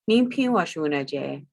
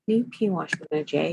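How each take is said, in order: First: It is said with statement intonation. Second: It is said with question intonation.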